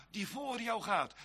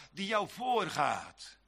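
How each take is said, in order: First: Said in the usual way. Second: Slow, deliberate "voorgaat"; fixing a slip of the tongue, slowly; careful correction. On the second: Shown as a demonstration. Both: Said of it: "Wat zeg ik nou?".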